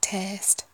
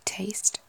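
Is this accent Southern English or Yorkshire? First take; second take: Yorkshire; Southern English. First: It is said with a flatter Yorkshire vowel. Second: It is said with a Southern English vowel. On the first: "that more kind of Yorkshire flatter A, like taste" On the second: "Southern English would be taste"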